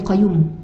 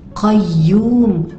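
First: The y sound in the middle is single. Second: The y sound in the middle is doubled. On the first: The speaker calls it wrong. "bukan Qayyum" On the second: The speaker calls it right. "Pada huruf ya ada tasydid, maka puan-puan kena doublekan dia"

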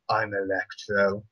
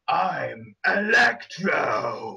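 First: It is said flatly, with little energy. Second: It is said forcefully, with menacing energy. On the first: The speaker calls it wrong. "that didn't sound anywhere near as cool" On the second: The speaker calls it right. "really, really badass like that"

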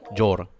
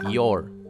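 First: The word begins with a J-like sound. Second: The word begins with a soft Y sound. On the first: The speaker calls it wrong. "estás pronunciando la Y como si fuese, no sé, una J, casi una J" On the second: The speaker calls it right. "Cuando en realidad acá es una I latina"

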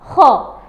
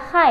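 First: The vowel sounds like a rounded o. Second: The vowel sounds like an open a. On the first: The speaker calls it right. "tapi ho" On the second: The speaker calls it wrong. "bukan dibaca ha"

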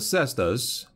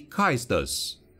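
First: The name is said with an anglicized pronunciation. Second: The name is said with a Latin-style pronunciation. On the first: "which admittedly it was how I pronounced it all along" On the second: "given the Imperium's hard-on for Latin, should probably actually be the correct pronunciation"

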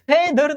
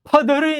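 First: The first vowel is a front eh. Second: The first vowel is a short uh. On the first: "ફેધર નહીં" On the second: "ફધર નહીં"

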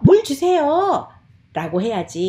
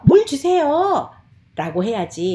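First: The tail is pitched apart from 'mul juseyo'. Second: The tail is pitched apart from 'mul juseyo'.

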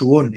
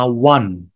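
First: The vowel sounds like a rounded 'o'. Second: The vowel sounds like an open 'a'. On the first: The speaker calls it wrong. "ما تقولش ون" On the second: The speaker calls it right. "اسمها وان"

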